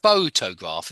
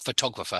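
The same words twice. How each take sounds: First: Photograph stressed on pho, the first syllable; teacher models photograph with weight on pho. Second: Photographer stressed on tog, the second syllable; teacher models photographer with weight on tog. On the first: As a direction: lean on the opening pho of photograph. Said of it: "it's on the first, first syllable". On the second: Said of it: "Photographer is on the tog". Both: Shown as a demonstration.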